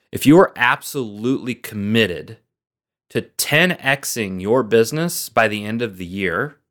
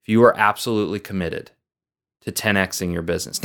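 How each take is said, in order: First: "are" weighted, "ten" rising, the question laid out slowly; slow posed question. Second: Quick restatement. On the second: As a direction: toss the question off again quickly. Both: Shown as a demonstration. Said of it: "here's the question".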